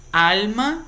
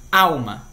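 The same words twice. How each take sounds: First: Alma said the Spanish way with a clear l, AL-ma, pitched higher; Spanish pronunciation. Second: Alma said the Portuguese way, AW-ma with the l turned to a w; Portuguese pronunciation. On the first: Teacher contrasting it with Portuguese, clear Spanish AL-ma. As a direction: sound the clear l of Alma, stressing AL. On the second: Teacher giving the Portuguese sound first, AW-ma. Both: Shown as a demonstration. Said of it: "em espanhol".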